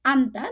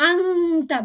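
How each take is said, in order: First: আন্তা with the nun sakin spoken as a clear n before t; আন্তা with the n fully pronounced, not nasalised. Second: আংতা with the nasal blended into ng, as in Quran recitation; আংতা with a nasalised ng instead of a clear n; wrong pronunciation. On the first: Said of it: "নুন সাকিনটা আমরা clearly উচ্চারণ করব". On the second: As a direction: say আংতা the way it should not be said. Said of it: "আংতা বলবো না". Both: Shown as a demonstration.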